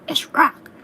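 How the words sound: It is said in an imitation of Popeye.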